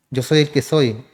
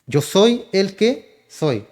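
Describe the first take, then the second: First: Said in the usual way. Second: "Yo soy el que soy" drawn out very slowly, each word weighted, falling on "soy"; slow solemn emphasis. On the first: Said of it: "yo soy el que seré". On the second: Shown as a demonstration. Preacher quoting God's name to the congregation, slow and solemn. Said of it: "que siempre es".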